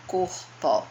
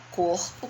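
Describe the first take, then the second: First: "corpo" dividido em duas sílabas; separando sílabas. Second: Said in the usual way. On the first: Shown as a demonstration. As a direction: say "corpo" syllable by syllable, cor-po. ("corpo" separado em sílabas, cor-po) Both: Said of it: "se eu for separar".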